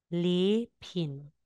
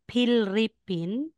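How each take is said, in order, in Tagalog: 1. Ang gitnang katinig ay double l na hinahaba. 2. Ang gitnang katinig ay isang tunog na parang r. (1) "magiging double L po yan" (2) "hindi mo siya sasabing Philippine"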